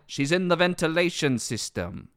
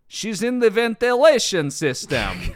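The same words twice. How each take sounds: First: It is said in a light, German-tinged accent. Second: It is said in a heavy Russian accent. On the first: The speaker calls it right. "It's actually more like, ... slight German accent" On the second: The speaker calls it wrong. "I'm doing Russian too well"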